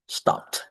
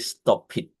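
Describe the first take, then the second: First: The ending adds no extra syllable. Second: The ending is an extra syllable. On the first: The speaker calls it right. "So we're gonna say stop" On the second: The speaker calls it wrong. "We don't say stop it"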